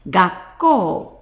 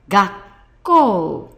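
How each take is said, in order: First: The word is said quickly. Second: The word is said slowly. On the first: "if we say that quickly" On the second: "we read it gakkou"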